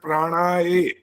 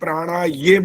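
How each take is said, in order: First: The word ends in a plain 'e' vowel. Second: The word ends in a 'ye' sound. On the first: "ए बोला ... दोनों गलत है" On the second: "प्राणा ये बोला तो भी दोनों गलत है"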